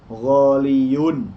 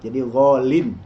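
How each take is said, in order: First: It has a y sound before the ending -un. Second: It has no y sound, ending in -in. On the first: This is the underlying original form of the word. The speaker calls it wrong. "asluhu ghalin itu begini, ghaliyun. Ya, tidak boleh mengatakan ghaliyun" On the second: This is the form actually used in speech. The speaker calls it right. "Huruf ya yang dihilangkannya diganti dengan tanwin"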